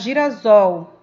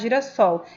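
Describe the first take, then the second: First: The middle consonant is a buzzing Z sound. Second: The middle consonant is a hissing S sound. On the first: "quando eu tenho um S entre vogais, eu tenho o som de Z" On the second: "eu não vou pronunciar girassol"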